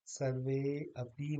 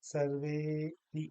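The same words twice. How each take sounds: First: सर्वे अपि with the अ pronounced; two separate words. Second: सर्वेपि slowly, with a very long वे; one-word सर्वेपि, no अ; joined long e. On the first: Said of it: "नहीं कहेंगे". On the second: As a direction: hold वे in सर्वेपि, then a quick पि. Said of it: "उसके साथ ही हम कहेंगे". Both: Shown as a demonstration.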